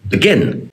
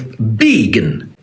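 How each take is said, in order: First: The stress is on the second syllable. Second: The stress is on the first syllable. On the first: The speaker calls it right. "how we actually say the word" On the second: The speaker calls it wrong. "that's how we would say the word if we emphasised the first syllable"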